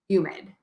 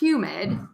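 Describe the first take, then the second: First: The word begins without any H sound. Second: The word begins with a clear H sound. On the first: "we say humid. So you do drop the H's sometimes" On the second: "we don't say humid"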